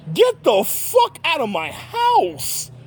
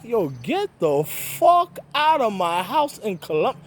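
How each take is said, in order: First: Much higher, very slow yell; hammered out high and slow; mock furious kick-out; retold yell. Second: Slow, drawn-out get-out; mock telling her off, slowly; dragged-out eviction line; retold angry order. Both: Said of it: "I was like".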